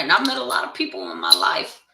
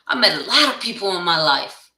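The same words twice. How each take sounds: First: Said in the usual way. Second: "lot" leaned on, the repeat said louder; stress on lot. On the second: Shown as a demonstration. Repeating to the camera that she met many people, stress on lot. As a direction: punch the word "lot" in the repeat.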